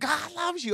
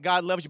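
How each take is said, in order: First: It is said with passionate, preaching intensity. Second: It is said plainly, as a calm statement. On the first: It is preaching the point. "Oh, he's preaching now" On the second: It is simply teaching a point. "you can say a point"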